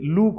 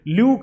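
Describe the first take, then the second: First: The 'oo' vowel follows directly, with no glide. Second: A 'y' glide comes before the 'oo' vowel. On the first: The speaker calls it right. "उसे लूक बोला जाएगा" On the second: The speaker calls it wrong. "उसे ल्यूक नहीं बोला जाएगा"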